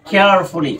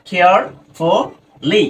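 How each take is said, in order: First: Said in the usual way. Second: Very slow "কেয়ারফুলি", split as কেয়ার, ফু, লি; "কেয়ারফুলি" with long gaps between its parts; broken into syllables. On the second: Shown as a demonstration. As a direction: sound out "কেয়ারফুলি" in three spaced chunks. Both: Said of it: "আমাদেরকে ভেঙে ভেঙে উচ্চারণ করতে হবে".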